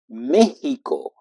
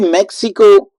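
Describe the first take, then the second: First: It is said with a Spanish pronunciation. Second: It is said with an English pronunciation. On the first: "in Spanish we say Mexico" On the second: "that would be more for English"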